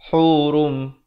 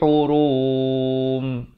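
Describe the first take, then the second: First: The ending stops short at once. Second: The ending is drawn out long. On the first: The speaker calls it right. "terus berhenti" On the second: The speaker calls it wrong. "Jangan panjangkan"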